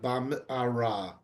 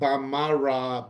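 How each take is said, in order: First: A short break follows the m. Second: The m runs straight into the vowel. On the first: The speaker calls it right. "you make just a pause to get from the mem to the ayin" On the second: The speaker calls it wrong. "So it's not bamara"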